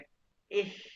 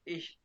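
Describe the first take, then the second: First: The word ends in a soft hiss between kh and sh. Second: The word ends in a plain sh sound. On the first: This is how native Germans say it. "वो इसको शीन और के दोनों मिक्स करते हैं" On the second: "Asian इसको इश पढ़ते हैं"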